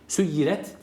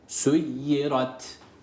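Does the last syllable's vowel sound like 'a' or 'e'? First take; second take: e; a. First: The last syllable has a thin 'e' vowel. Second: The last syllable has a full 'a' vowel. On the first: The speaker calls it wrong. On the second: The speaker calls it right.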